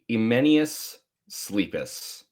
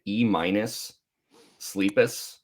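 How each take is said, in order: First: The first word is not said like 'E minus'. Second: The first word is said like 'E minus'. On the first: "I think that's right" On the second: "just calling it E minus Sleepus. Like you got an E minus"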